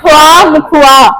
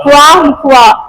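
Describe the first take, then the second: Both takes have the same delivery.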